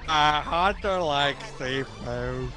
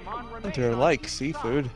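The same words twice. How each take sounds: First: The sentence is said slowly and dopily. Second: The sentence is said at a normal pace.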